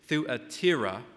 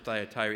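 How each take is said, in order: First: The name is said with a Greek pronunciation. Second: The name is said with an English pronunciation. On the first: "In the Greek, it's Thuatira" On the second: "we pronounce it Thyatira"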